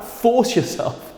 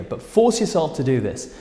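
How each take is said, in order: First: "force" stretched slow and lifted high; emphatic push. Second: Said in the usual way. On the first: Shown as a demonstration. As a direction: force yourself, high and drawn out slowly. Urging viewers to record themselves.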